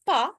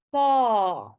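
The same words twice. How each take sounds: First: "pa" with a short, cut-off A; short vowel. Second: "pa" with a long, drawn-out A; louder "pa", stretch the A; long vowel. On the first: Teacher shows learners the wrong "pa", short A. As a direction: say "pa" quickly, A not held. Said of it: "It's not pa". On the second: Teacher shows learners the correct "pa", long A. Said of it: "it's a long sound". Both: Shown as a demonstration.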